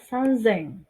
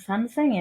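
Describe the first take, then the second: First: The middle consonant is a voiced z sound. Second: The middle consonant is a voiceless s sound. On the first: The speaker calls it right. "Bilangan khusus pada ribuan adalah sanzeng" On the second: The speaker calls it wrong. "Jadi bukan sanseng ya"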